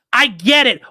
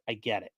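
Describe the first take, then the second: First: High, loud fed-up yell; exasperated shout. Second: Low, much softer fade; resigned mumble. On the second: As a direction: barely say it, giving up. Trailing off after rant. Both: Real, not acted.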